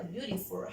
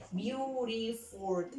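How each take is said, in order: First: Said in the usual way. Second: BEAUTIFUL slowly split into three beats, beau-ti-ful; syllable by syllable. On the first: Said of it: "¿cuántas sílabas tiene la palabra". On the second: Shown as a demonstration. Teacher counting syllables of beautiful for the pupils, syllable by syllable. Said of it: "Son tres sílabas".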